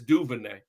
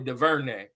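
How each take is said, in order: First: The name is said the local New Orleans way. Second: The name is said the way outsiders say it. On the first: The speaker is from the New Orleans area. "If you from if you from New Orleans area, it's Duvernay" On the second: The speaker is not from the New Orleans area. "if if you're not, you probably DuVernay"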